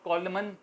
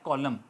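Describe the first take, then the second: First: The word ends with an audible n sound. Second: The word ends without an n sound. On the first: "उसको कॉलमन लिखते हैं" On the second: "मगर बोलते हैं कॉलम"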